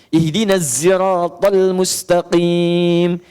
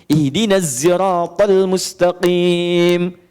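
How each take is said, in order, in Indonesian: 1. Sirat diawali dengan bunyi 'z'. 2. Sirat diawali dengan bunyi 'z'.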